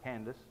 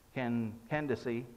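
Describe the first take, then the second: First: The name is said with two syllables. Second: The name is said with three syllables. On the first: "Some of us pronounce it Candace" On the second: "My self-pronouncing Bible has three syllables"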